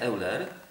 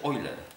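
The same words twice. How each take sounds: First: The name begins with separate 'eh-oo' vowels. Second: The name begins with an 'oy' sound. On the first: The speaker calls it wrong. "to nazwisko się czyta nie Euler" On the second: The speaker calls it right. "Czyta się Euler"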